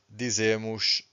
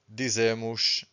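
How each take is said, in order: Both takes have the same delivery.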